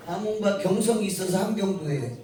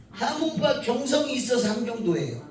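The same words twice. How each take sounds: First: 경성이 pushed out as the key word on the repeat; stress on 경성이. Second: 함흥과 pushed out as the key word, the rest falling away; stress on 함흥과. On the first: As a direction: lean on 경성이 this time, not 함흥과. (경성이에 힘을 주어 강조) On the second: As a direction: lean hard on 함흥과 as the teacher explains. (함흥과에 힘을 주어 강조) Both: Shown as a demonstration. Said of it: "아시겠어요?".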